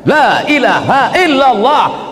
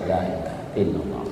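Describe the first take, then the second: First: It is said loudly. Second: It is said softly.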